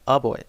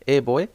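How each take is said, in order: First: The article is pronounced with a short 'uh' vowel. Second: The article is pronounced with a full 'ay' vowel. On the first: "ए का उच्चारण आ भी करते हैं" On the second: "ए भी करते हैं"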